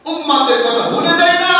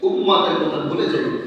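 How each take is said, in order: First: Raised, ringing chant ending on a held "না"; rousing preacher's call. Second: Said in the usual way. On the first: Shown as a demonstration. Preacher repeats the point to the congregation, rousing call. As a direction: call it out to the congregation, last word stretched.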